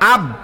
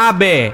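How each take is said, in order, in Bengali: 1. শেষ ব্যঞ্জনটি প্রতিধ্বনি ছাড়াই হঠাৎ থেমে যায়। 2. শেষ ব্যঞ্জনটি প্রতিধ্বনিত হয়ে ফিরে আসে। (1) "আমি কিন্তু ইচ্ছা করলে বলতে পারতাম আব" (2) "লাস্টে একটা বে উচ্চারণ হয়েছে"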